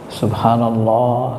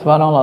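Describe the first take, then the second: First: It is said calmly and slowly. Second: It is said hurriedly and restlessly.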